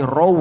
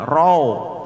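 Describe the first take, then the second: First: "rau" closing on a clear u; contoh benar. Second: "rau" slackened into a drawn-out o ending; contoh salah. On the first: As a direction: round the end of "rau" into oo. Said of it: "wawunya seperti u". ("rau" diakhiri u, bukan o) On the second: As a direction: say "rau" like "rao", slowly. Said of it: "Jangan sampai dibaca seperti o". ("rau" keliru dibaca seperti rao) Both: Shown as a demonstration.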